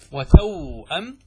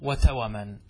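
First: "وتوأم" drawn out as wa-tawww-'am; sukun on waw. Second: "وتوما" slowly as wa-ta-wa-man, no hamza; measured ta-wa-man in "وتوما"; vowel moved onto waw. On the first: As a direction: hold the w in "وتوأم" before the glottal stop. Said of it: "بسكون الواو". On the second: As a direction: give the w in "وتوما" a short a. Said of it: "والواو في توأم". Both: Shown as a demonstration.

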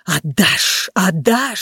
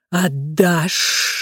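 First: Repeated, sibilant demand of a fire; insistent voice of the flames; roaring flame. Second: Drawn-out sibilant demand; serpent's hissed threat; hissing snake. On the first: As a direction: rush it out like noisy flames. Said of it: "шумело пламя". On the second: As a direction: hiss it like a snake. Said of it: "прошипела змея". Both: A narrator's reading.

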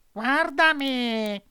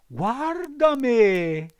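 First: High, slow cat voice, echoing the fox; mournful mock lament; sly cat. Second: High, loud, slow fox voice; a hammed-up warning; sly fox. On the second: Fox warns against studying. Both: A narrator's reading.

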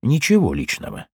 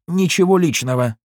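First: Bitter echo. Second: Higher, offhand nothing personal; dismissive. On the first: A narrator's reading. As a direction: repeat it with dark irony. Narrator echoes it bitterly. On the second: Acted. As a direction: brush it off coldly. Goldstein shrugs it off.

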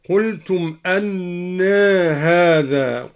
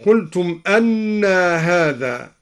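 First: أنى ending in a long vowel tilted slightly toward e; taqlil on أنى. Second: Said in the usual way. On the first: Shown as a demonstration. Teacher shows al-Duri's taqlil of أنى, final a shaded toward e. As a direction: draw out أنى as "annae", slowly. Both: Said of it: "قلل الدوري لفظ أنى هكذا".

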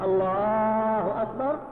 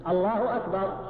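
First: الله أكبر slowly as "allaaaahu akbar"; stretched الله, short أكبر; long vowel after lam. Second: الله أكبر plain and brief; unstretched "Allahu akbar"; takbir without elongation. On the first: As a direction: hold the A after the L in الله on a level tone. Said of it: "لو مددت". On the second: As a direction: keep the A in الله short, no stretch. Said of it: "هذا الحذف". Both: Shown as a demonstration.

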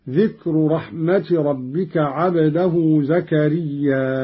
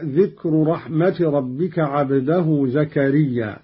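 First: زكريا ending in a long drawn-out aa before a hamza; slow recitation, stretch the last aa of زكريا toward a hamza; Qalun's hamza reading. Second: Said in the usual way. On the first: Shown as a demonstration. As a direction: hold the final alif of زكريا long, as zakariyyaaa'. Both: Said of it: "قرأ قالون بالهمز بعد الألف".

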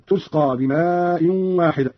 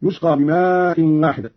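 First: تسقى begun with t, "tusqa"; slow recitation, clear t opening تسقى; feminine ta prefix. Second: Said in the usual way. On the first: Shown as a demonstration. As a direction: say تسقى as "tusqa", drawing out بماء. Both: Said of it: "قرأ قالون بالتاء على التأنيث".

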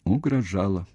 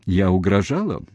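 First: Understated, resigned admission; mildly mournful agreement; sad confirmation. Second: Insistent question, punched on the verb; pointed accusing question; challenging question. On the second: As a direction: press him for an admission. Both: A narrator's reading. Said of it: "печально подтвердил он".

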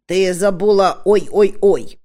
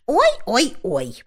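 First: Ой-ой-ой said louder as a pointed prompt. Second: Ой-ой-ой drawn out slowly and a bit higher, a falling wail; dutiful wail. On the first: Dwarf reminding the witch to say ой-ой-ой. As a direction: lean hard on ой-ой-ой to remind her. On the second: Witch adding the forgotten ой-ой-ой slowly. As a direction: stretch ой-ой-ой slowly, as if remembering the part. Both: Acted.

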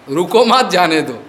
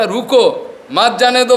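First: रुको मत as one unit, then जाने दो; reversed phrasing. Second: रुको higher and cut off by a pause, then मत जाने दो; intended phrasing. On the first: Teacher showing the master's slip, रुको मत joined together. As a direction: run मत straight on from रुको, no break before it. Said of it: "वो उल्टा हो गया". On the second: Teacher correcting the master's slip, clear pause after रुको. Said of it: "बोलना था". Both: Shown as a demonstration.

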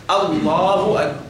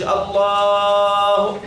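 First: "الله أكبر" with a measured two-beat long a in Allah; natural two-count madd. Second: Slow "الله" with the second a held far too long; overlong madd. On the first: Teacher modelling the natural madd, moderately long vowel. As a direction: give the a after the lam in "الله أكبر" just two counts. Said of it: "تقول إيه؟". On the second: Teacher showing the forbidden excess, madd overstretched. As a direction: hold the vowel after the lam in "الله" on and on. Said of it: "ما تقولش". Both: Shown as a demonstration.

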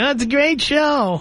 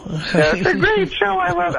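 First: High, slow sing-song mock wife; host mocking the wife in the background; mimicking the wife. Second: Mock gushing wife. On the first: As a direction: imitate her praising the show. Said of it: "in the background saying". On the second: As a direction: ham up her gushing. Caller mocks wife's gushing.

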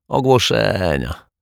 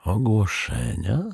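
First: Slow, higher, falling dismissal; dismissive. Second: "Ogłoszenia" slower, rising at the end; soft, wondering "Ogłoszenia?"; puzzled question. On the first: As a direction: say "Ogłoszenia" drawn out, ending on a fall. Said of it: "machnął lekceważąco ręką". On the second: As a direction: ask "Ogłoszenia" with a questioning lift. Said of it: "Detektyw Pozytywka zmarszczył brwi". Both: A narrator's reading.

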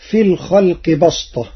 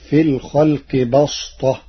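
First: Said in the usual way. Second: بسطة said with an emphatic sad; Warsh reading. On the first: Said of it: "قرأ ورش كلمة بسطة". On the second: Shown as a demonstration. Teacher demonstrates Warsh's بسطة with sad instead of sin. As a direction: give بسطة a heavy emphatic s. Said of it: "بالصاد".

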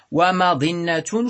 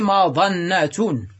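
First: ومظنة as wa-madinna, i on the emphatic d; irregular kasra form. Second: مظنة as madanna, a on the emphatic d; fatha form. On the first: Teacher giving the irregular noun, ومظنة said wa-madinna. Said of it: "شذوذا". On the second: Teacher giving the regular noun, مظنة said madanna. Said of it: "بالفتح قياسا". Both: Shown as a demonstration.

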